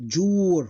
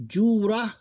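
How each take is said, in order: First: Jur slow and long, closed on R; one closed syllable. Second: Jura high and loud, long "juu" then "ra"; open ending. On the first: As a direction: draw out jur with no vowel after R. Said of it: "one closed syllable". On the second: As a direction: sound out both syllables of Jura, first one long. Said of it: "one syllable, one closed syllable". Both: Shown as a demonstration.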